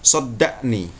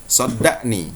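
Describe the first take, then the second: Both takes have the same delivery.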